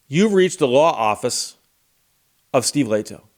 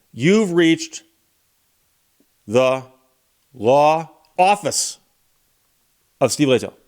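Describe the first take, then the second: First: Lightly voiced office phone greeting; measured, matter-of-fact recorded greeting; pleasant receptionist. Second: "law office" drawn out slowly, set apart by pauses; pointed, word-by-word repeat. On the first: Office voicemail greeting a caller, lightly imitated pleasant receptionist. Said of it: "very pleasant woman's voice comes on". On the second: Retold or imitated. Lawyer repeating his office greeting to make a point, slow pointed emphasis on "law office". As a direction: spell out "law office" slowly, pausing before each part.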